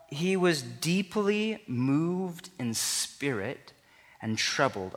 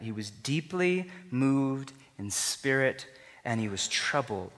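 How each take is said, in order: First: Deeply moved said very slowly; slow emphasis. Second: "deeply" weighted, slowed; stress on deeply. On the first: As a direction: linger on every word. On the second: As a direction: lean into "deeply". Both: Shown as a demonstration. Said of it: "Underline that, star that, remember that".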